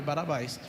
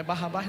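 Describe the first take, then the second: First: Barabás with a single tapped R; corrected name. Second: Barrabás with a rolled double R, the wrong way; wrong name. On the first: Father corrects himself, right Barabás. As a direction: say Barabás, light tap on the R. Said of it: "Não é Barrabás". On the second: Father corrects himself, wrong Barrabás first. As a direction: say Barrabás as the mistaken form. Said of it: "não, é Barabás". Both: Shown as a demonstration.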